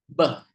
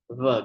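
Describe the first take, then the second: First: The first consonant is said hard. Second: The first consonant is said soft. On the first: The dot is above the letter. "maka bacanya itu hard" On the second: The dot is below the letter. "maka bacanya soft"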